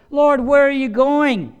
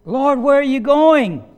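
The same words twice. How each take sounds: First: High, loud, slow worried cry; anxious plea. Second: High, loud, slow near-tearful cry; tearful plea. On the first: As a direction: Peter begging his Lord not to go. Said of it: "feeling like Peter". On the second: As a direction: beg through tears not to be left. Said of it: "had tears in his eyes". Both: Acted.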